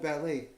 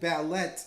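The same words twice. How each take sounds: First: The word is pronounced the usual way. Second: The word is pronounced as it is spelled. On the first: This is the normal way to say it. The speaker calls it right. "They never called it ballet" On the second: This is how the people in the movie said it. The speaker calls it wrong. "they called it ballet in the movie"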